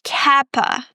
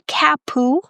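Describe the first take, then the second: First: The vowel after the p is a neutral schwa. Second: The vowel after the p is a full 'oo'. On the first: The speaker calls it right. "So you start with kappa" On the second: The speaker calls it wrong. "not capu"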